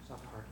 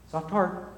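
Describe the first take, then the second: First: "Soft heart" much softer, almost breathed; near-whispered echo. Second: Said in the usual way. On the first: Shown as a demonstration. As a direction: let "Soft heart" fall to a hush.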